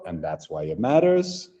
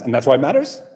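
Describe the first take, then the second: First: The phrase is said very slowly. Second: The phrase is said very quickly. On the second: "I want you to say it fast"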